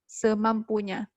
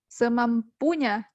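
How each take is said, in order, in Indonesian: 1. Tekanannya ada pada suku kata kedua. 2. Tekanannya ada pada suku kata ketiga. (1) "tapi kita bilang semampunya" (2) "kita juga tidak menekan pada suku kata ketiga, pu"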